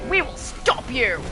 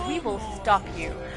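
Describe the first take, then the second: First: It is said forcefully and intensely. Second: It is said calmly and quietly.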